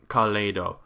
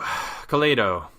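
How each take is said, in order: First: The name is pronounced the Japanese way. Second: The name is pronounced the English way.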